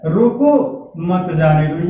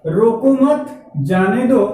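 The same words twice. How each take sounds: First: रोको rising, a break, then lower मत जाने दो; रोको alone, मत joined to जाने दो; pause after रोको. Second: रोको मत run together, then जाने दो; group मत with रोको, not with जाने; "रोको मत" as one phrase, जाने दो separate; pause after मत. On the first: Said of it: "एक शब्द के बाद कामा लगा". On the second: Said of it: "यहाँ पे कामा लगा". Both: Shown as a demonstration.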